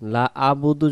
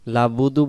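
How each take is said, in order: First: A plain vowel begins the syllable after 'la'. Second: 'La' runs straight into 'budu', with no syllable between. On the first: "আইন অক্ষর বাদ চলে যাইতেছে" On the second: "দুই অক্ষরে এখানে ছুটে চলে যাইতেছে"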